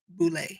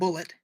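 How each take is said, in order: First: It is said with a French-style pronunciation. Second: It is said like the English word bullet. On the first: The speaker calls it right. "it has a French pronunciation" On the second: The speaker calls it wrong. "it's not bullet"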